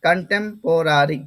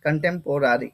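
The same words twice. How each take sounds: First: কন্টেম্পোরারি slowly as kan-tem, po, ra-ri; syllable-by-syllable pronunciation. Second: কন্টেম্পোরারি lower and more connected; pronunciation demo. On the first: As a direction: draw out the chunks of কন্টেম্পোরারি. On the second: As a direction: repeat কন্টেম্পোরারি as kantem-porari, falling at the end. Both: Shown as a demonstration. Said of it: "যে উচ্চারণটা হবে সেটা হচ্ছে".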